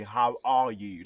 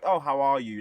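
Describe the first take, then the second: First: "how are you" slow and weighted; sincere question. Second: Said in the usual way. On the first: Shown as a demonstration. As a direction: ask "how are you" slowly, really wanting to know. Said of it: "Like, really". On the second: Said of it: "but not like".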